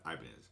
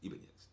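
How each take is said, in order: First: The name is said with American pronunciation. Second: The name is said with Spanish pronunciation. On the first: This pronunciation came later. The speaker calls it wrong. "not Ibanez. Ibanez came later when, you know, all of us Americans started pronouncing it Ibanez" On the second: This is the original pronunciation. The speaker calls it right. "That's how it's Ibanez"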